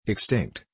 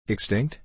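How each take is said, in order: First: EXTINCT with a falling, settled end; confirming tune. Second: EXTINCT with a rising, questioning end; questioning tune. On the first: Host giving the ready reply, EXTINCT falling as a confirmation. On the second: Uncle querying the volcano's state, EXTINCT rising as a question. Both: A narrator's reading.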